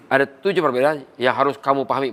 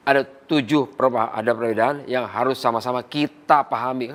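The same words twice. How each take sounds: First: Trainer showing the wrong way, instructing "kamu" from above; plain, brisk instruction aimed at KAMU; lecturing. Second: Inclusive, embracing. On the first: Trainer demonstrates how not to address partners, lecturing. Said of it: "bukan begitu". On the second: Trainer shows how to draw partners in, inclusive. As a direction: invite them in, leaning on KITA. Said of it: "Kan rangkul itu namanya". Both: Shown as a demonstration.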